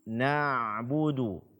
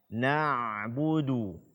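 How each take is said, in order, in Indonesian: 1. Suara tetap mengalir melalui bunyi ain. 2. Suara tetap mengalir melalui bunyi ain.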